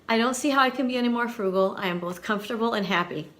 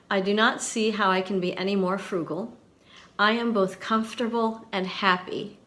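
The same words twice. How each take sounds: First: A brisk, delighted second reading; fast, warm repeat; quick, light reread. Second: Measured, emphatic read; slow, deliberate reading. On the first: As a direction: rattle it off fast, admiringly. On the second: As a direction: read it out slowly, pausing for weight. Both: Shown as a demonstration. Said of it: "listen carefully".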